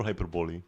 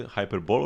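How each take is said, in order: First: Hyperbole pronounced "hyper-bowl-ee"; hyper-bowl-ee reading. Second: Hyperbole pronounced "hyper-bowl"; hyper-bowl reading. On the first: Streamer asking which is correct, hyperbole as "hyper-bowl-ee". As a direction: end hyperbole on a clear "ee". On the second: Streamer asking which is correct, hyperbole as "hyper-bowl". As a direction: end hyperbole on "bowl", no final ee. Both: Shown as a demonstration. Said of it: "Do you say hyperbole or hyperbole".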